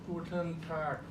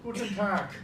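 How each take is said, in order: First: The final consonant is swallowed and not released. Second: The final consonant is clearly released with a burst. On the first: "they say something like Guten Tag. Nothing comes out" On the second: "always a nice consonant at the end"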